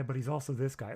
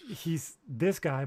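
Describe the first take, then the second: First: Said in the usual way. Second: Slow, drawn-out this guy. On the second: Shown as a demonstration. Contrasting two sides of Elon, slow and drawn out. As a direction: stretch the words he's this guy.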